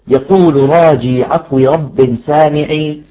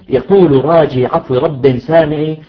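The two takes are said the same way.

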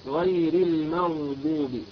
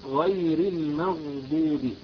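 Both takes have the same delivery.

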